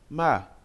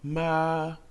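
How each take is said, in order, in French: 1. Le ton bouge vivement et brusquement. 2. Le ton reste plat et aigu. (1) "Le quatrième ton est brusque" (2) "Le premier ton se prononce plat et aigu"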